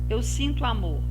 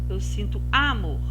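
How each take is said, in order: Both takes have the same delivery.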